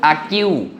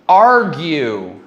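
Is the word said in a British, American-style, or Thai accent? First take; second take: Thai; American-style. First: It is said with a Thai accent. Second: It is said in the speaker's own accent.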